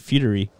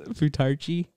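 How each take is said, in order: First: The ch sound is left out of the word. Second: The ch sound is said in the word. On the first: "I feel like the C H is silent. I think it's like futury" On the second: "we're calling it futarchy"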